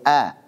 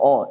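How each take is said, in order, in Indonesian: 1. Vokalnya tipis dan terang, seperti a. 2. Vokalnya tebal dan gelap, seperti o. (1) "dibaca selalu tipis" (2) "enggak boleh o"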